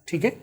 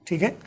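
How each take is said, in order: No difference in how they are said.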